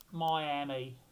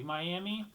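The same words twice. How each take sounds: First: Miami in a mock Irish accent, first vowel rounded to "moy". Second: Said in the usual way. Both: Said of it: "I don't know why I say Miami with an Irish accent".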